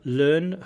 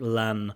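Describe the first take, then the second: First: The vowel is a long 'er' sound. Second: The vowel is a short open 'a' sound.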